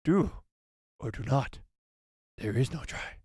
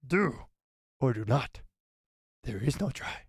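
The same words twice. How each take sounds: First: A touch of croaky Yoda, slower; second try at the little master; lightly voiced Yoda again; Yoda impression. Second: A hint of croaky Yoda; lightly voiced Yoda; Yoda impression. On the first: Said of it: "let me try one more time". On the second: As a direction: try out a wise little master. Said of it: "that wasn't half bad". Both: Shown as a demonstration.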